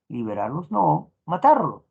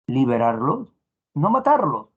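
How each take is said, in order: First: The pause comes right after the word no. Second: The pause comes right before the word no. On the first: They should not be freed but killed. "sin pausa, liberarlos no, y ahí recién la pausa" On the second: They should be freed and not killed. "el ejemplo uno"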